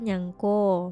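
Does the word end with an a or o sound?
o. It is said in Jambi dialect, ending in o.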